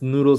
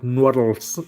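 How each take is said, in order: First: The word is pronounced in an ordinary way. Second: The word is pronounced in an odd, distorted way.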